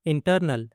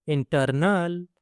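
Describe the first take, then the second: First: Said in the usual way. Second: internal slow, with a long final "nal"; slow teaching repeat of internal; drawn-out repeat. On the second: Shown as a demonstration. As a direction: stretch out internal for learners. Word model, then drawn-out repeat.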